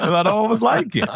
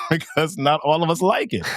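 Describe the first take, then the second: First: Much higher, giggling through it; high laughing repeat. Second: Chuckling through the words; laughing. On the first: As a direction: squeal the punchline through laughter. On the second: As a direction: say it while laughing. Joke about hating math. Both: Real, not acted.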